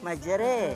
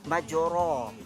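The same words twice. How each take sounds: First: The final vowel is tilted strongly toward e. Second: The word ends in an open a vowel. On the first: "Kalau baris imalah majra" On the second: "Kalau baris di atas kita baca majra"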